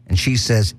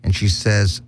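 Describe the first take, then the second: No difference in how they are said.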